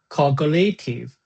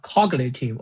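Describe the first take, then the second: First: The stress is on the second syllable. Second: The stress is on the first syllable. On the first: "or the second part" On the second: "the first uh, uh, the first part"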